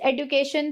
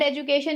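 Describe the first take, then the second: First: The middle consonant sounds like 'd'. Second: The middle consonant sounds like 'j'. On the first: "it's एडुकेशन" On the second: "it's not एजुकेशन"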